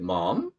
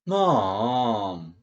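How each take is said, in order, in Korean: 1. 질문하듯 말하는 거예요. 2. 징징대며 조르듯 말하는 거예요. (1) "의문형으로" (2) "보채는 기분으로 좀 조르는 기분으로는"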